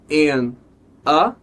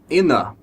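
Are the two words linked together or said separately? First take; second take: separately; linked. First: The two words are said separately. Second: The n sound links straight into a.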